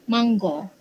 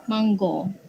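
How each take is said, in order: First: It is said in Negeri Sembilan dialect pronunciation. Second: The same.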